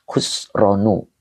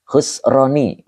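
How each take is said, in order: First: Khusronu said slowly, ending clearly in -nu; careful correction, Khusronu with final u; slow corrected reading of Khusronu. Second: Khusroni read ending in -ni; the wrong take, Khusroni with final i; reading Khusroni as -ni, not -nu; misread Khusroni. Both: Shown as a demonstration. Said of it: "Salah saya bacanya tadi".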